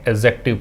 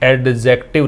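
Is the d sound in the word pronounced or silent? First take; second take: silent; pronounced. First: The d sound is left out. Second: The d sound is clearly pronounced. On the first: The speaker calls it right. "डी का उच्चारण हमें नहीं करना होता" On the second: The speaker calls it wrong. "एडजेक्टिव नहीं पढ़ना है"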